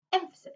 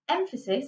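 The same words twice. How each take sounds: First: Said in the usual way. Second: "emphasis" lifted and pressed on the first syllable EM; stressed word. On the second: Shown as a demonstration. Teacher stressing the word "emphasis" to show emphasis. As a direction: make "emphasis" stand out. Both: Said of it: "ironically, I just did there".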